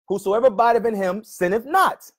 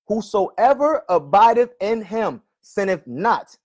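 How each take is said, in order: First: The phrase is read at a normal, quicker pace. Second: The phrase is read at a slower pace.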